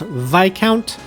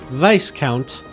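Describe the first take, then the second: First: The s in the word is silent. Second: The s in the word is pronounced. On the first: This is the standard pronunciation of the title. "I know it is pronounced Viscount" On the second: This is the pronunciation the characters in the story use. "but they pronounce it Viscount"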